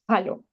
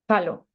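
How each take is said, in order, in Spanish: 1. Empieza con un sonido j áspero y gutural. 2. Empieza con un sonido j áspero y gutural.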